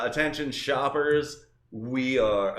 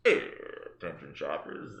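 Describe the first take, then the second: First: Said in the usual way. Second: Low, slow cockpit announcement; a hint of airline pilot on the PA. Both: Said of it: "oh no, I sound like a pilot".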